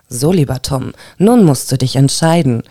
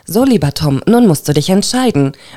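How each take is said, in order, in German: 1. Die Stimme klingt sinnlich und verführerisch. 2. Die Stimme klingt eher schlicht, nicht verführerisch. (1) "So ist noch ein bisschen besser" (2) "das war jetzt gar nicht so sehr erotisch"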